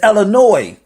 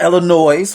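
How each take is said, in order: First: The word ends with no S sound. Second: The word ends with an audible S sound. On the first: The speaker is a local. The speaker calls it right. "The S is silent" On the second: The speaker is from out of town. The speaker calls it wrong. "It's not Illinois for you out of town"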